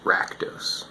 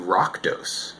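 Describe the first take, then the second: First: The first syllable sounds like 'rack'. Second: The first syllable sounds like 'rock'. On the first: The speaker calls it right. "I learned that it was pronounced Rakdos, which is kind of telling because there's an A in there" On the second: The speaker calls it wrong. "I called them the Rockdos"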